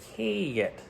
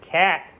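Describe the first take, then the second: First: The vowel is said with a northern drawl. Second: The vowel is said in a standard accent. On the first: "they've got a bit of a northern drawl" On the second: "the vowel sound in cat"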